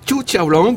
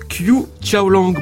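First: The name is said with Chinese-style sounds. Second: The name is said with French-style sounds. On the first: "La prononciation chinoise" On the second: "Est-ce que je prononce bien votre nom?"

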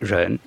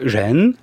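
First: The pitch falls downward. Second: The pitch rises like a question. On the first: It means compassion. "qui descend" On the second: It means benevolence. "comme s'il y avait une sorte de point d'interrogation"

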